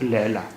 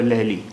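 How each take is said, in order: First: The word ends with an 'ah' vowel. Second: The word ends with an 'ee' vowel. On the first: The speaker calls it right. "This word will, will be um, pronounced as Laila" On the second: The speaker calls it wrong. "It won't be pronounced as uh, Laili"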